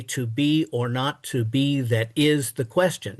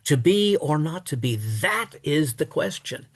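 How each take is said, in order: First: Regular metre, with "is" stressed rather than "that"; strict iambic stress on IS. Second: Reversed foot, "that" stressed and "is" left light; turning-point stress on "that" instead of "is". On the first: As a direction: follow the strict pattern, landing on "is". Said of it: "the strict pattern would call for us to say". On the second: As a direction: throw the emphasis onto "that", then ease off. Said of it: "he throws the emphasis on, uh, on that". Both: Shown as a demonstration.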